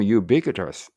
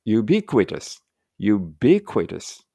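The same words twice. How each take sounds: First: "ubiquitous" with weight on "BI" and a light ending; written reading. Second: "ubiquitous" sounded out with a clear "kwi"; careful kw reading. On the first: Teacher reading the phonetic symbols, stressed-BI pronunciation. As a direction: lean on BI in "ubiquitous", hurry past the kw. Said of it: "になってます". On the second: Teacher comparing dictionary readings, careful kw pronunciation. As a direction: say "ubiquitous" deliberately, giving kw its full sound. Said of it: "発音が". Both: Shown as a demonstration.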